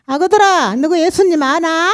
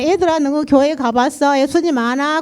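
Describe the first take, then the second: First: The pastor's Jeolla lilt, higher and brighter; Jeolla dialect. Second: Said in the usual way. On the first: Retold or imitated. Church testimony, pastor calls children in Jeolla dialect. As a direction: call 아그들아 out in thick Jeolla dialect. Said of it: "전라도 말을 구성지게". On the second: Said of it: "그러고 묻잖아요".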